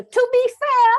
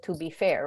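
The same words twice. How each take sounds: First: Very high, loud British interruption; piercing British put-on, r dropped; British accent. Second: Said in the usual way. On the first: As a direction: cut in with a mock British accent. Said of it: "I just do it with the accent". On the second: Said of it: "whenever she started with".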